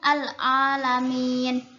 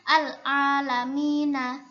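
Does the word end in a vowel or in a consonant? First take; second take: consonant; vowel. First: The final syllable ends with a consonant. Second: The final syllable ends with a vowel. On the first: This is the reading when stopping. "karena iska udah dibaca iskan, maka jadinya al-alamin" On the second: This is the reading when not stopping. "kan harusnya membacanya al-alamina"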